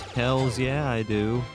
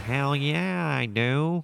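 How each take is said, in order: First: It is said in a normal, natural voice. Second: It is said in a put-on character voice. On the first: The speaker answers for himself. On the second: A game character is thinking it.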